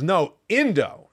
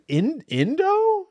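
First: Slow, insistent "No, Indo" with a firm falling end; mild imitation of a stubborn child; a hint of a toddler setting dad straight; toddler correcting. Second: "Indo" slow and much higher, drawn out like a baffled guess; high slow "In-, Indo?" as a bewildered try; puzzled questioning. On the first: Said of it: "And she goes". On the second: Retold or imitated. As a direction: stretch "Indo" upward in confusion. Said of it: "I'm trying out all these things".

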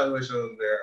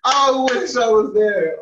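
First: Said in the usual way. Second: Loud, breathless from laughter; after laughing hard. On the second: Real, not acted. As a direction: still gasping from a laugh.

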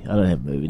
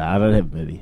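First: "dont" hit hardest, low and firm; stress on don't. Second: "have" pushed hardest, denying flatly; stress on have. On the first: Repeating to mates there's no movie, stress on dont. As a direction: punch "dont" as you deny it. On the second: To mates asking about his movie, stress on have. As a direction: lean on "have". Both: Real, not acted.

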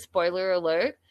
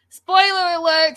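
First: Said in the usual way. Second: "Spoiler alert" squeaked much higher and louder; high squeaky spoiler alert. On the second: Acted. Host warning chat of spoilers, high teasing squeal.

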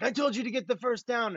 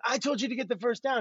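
First: A higher, half-hearted imitation of a yelling coach; mock coach yell. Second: Higher, half-hearted imitation of the coach yelling; mock coach yell. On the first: Quarterback imitating Mike Holmgren yelling at him on the sideline, mock yell. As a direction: bark it like the head coach, lightly. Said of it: "he'd yell something like". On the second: Quarterback imitating the coach yelling the same order at his teammate, mock yell. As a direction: repeat the coach's yell, lightly hammed. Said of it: "he would yell you the same thing".

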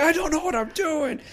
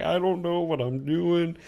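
First: Much higher, frantic admission of being lost; panicked admission. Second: Slow, drawn-out helpless repeat; slow dazed repeat. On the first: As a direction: wail it in helpless panic. Panicked in the VR game. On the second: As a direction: let it drag out bewildered. Same line repeated slowly. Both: Retold or imitated.

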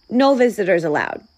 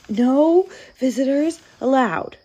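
First: Brisk, louder announcement of a rule; quick, no-nonsense bear turning someone away; firm refusal. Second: Sniffle the rule out plaintively; weepy bear clinging to a rule; sniffling. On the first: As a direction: state the rule briskly and firmly. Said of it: "Bear said, pointing to the sign". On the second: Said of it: "he sniffled". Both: A narrator's reading.

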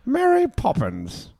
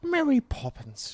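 First: High, slow, lilting name call; high sing-song Mary Poppins. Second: High, slow, airy echo of the name; high sing-song Mary Poppins. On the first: To his co-host, echoing the film's title in a high lilting voice. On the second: Answering his co-host, copying the high lilting name call. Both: Pretend.

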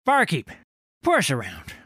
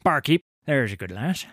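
First: Loud, high call across the tavern. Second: Said in the usual way. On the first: Acted. Old sailor hailing the barkeep across the tavern, loud call. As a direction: hail the barkeep across the room.

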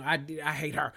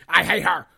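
First: Said in the usual way. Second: Much louder "I hate her", nearly shouted; loud repeat. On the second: Real, not acted. Ranting to viewers about the annoying houseguest, loud. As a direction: blast it the second time. Escalating rant about a cast member.

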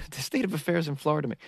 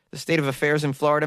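First: Laughing at a flubbed line; laughing through it. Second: Said in the usual way. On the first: Real, not acted. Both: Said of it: "which is what I tried to say".

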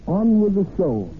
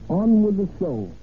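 Both takes have the same delivery.

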